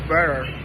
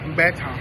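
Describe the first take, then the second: First: The word is said in an American accent. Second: The word is said in a British accent. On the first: "In American English" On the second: "In British English"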